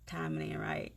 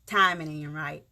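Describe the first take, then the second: First: "Timing ain't right" repeated much softer, to herself; quiet echo. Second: Said in the usual way. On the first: Real, not acted. Telling viewers she can't say more yet, softly. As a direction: drop the volume and murmur "Timing ain't right". Repeats line, second time hushed.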